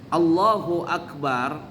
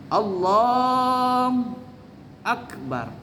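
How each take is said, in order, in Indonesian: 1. Bunyi 'hu' setelah 'Allah' diucapkan penuh. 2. Bunyi 'hu' setelah 'Allah' dihilangkan. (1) "nggak boleh putus" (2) "hu-nya dia hilangkan"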